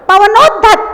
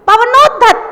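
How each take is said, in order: Both takes have the same delivery.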